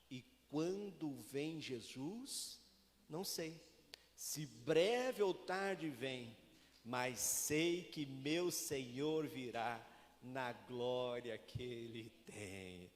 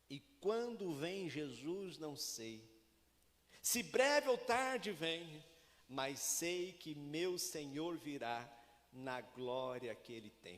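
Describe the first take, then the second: First: It is read very slowly. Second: It is read at normal speed.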